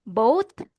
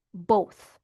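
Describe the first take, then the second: First: "Both" said as "boat", rising; "Both" as bow plus T, lifted; final T sound. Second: "both" as bow plus TH; final TH sound. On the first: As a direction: say "Both" with a hard T ending. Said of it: "bow na may T". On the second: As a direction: say "both" ending on TH, pitch dropping. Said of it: "bow na may T H sound sa dulo". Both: Shown as a demonstration.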